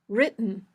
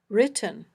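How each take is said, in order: First: The t is a catch in the throat. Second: The t is released with a puff of air. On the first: "this glottal stop" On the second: "a puffy t"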